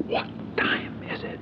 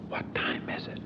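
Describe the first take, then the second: First: Slower hushed whisper; whispered again. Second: Hushed whisper in a funeral pew. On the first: Pressing Howard again at the funeral, slow whisper. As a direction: whisper it slowly and insistently. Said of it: "I said". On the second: Leaning to Howard in the chapel, whispered question. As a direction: whisper it so nobody hears. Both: Retold or imitated.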